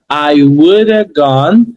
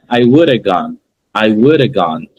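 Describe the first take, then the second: First: "I woulda gone" drawn out slowly, rising at the end; slow connected model. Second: "I woulda gone" linked as one unit, falling at the end; connected sounds. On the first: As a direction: stretch "woulda gone" for learners, still linked. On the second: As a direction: say "woulda gone" smoothly joined, without stretching. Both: Shown as a demonstration. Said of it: "eles conectam os sons".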